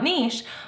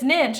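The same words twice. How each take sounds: First: The vowel is long, rhyming with leash. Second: The vowel is short, rhyming with itch. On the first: The speaker calls it wrong. "and not" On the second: The speaker calls it right. "the riches are in the niches proves that it's niche"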